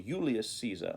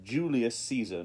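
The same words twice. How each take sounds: First: Julius begins with a Y sound. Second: Julius begins with a J sound. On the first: This is the Roman Latin pronunciation. "in Roman Latin, that was the same letter as I" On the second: This is the English pronunciation. "We have the J sound"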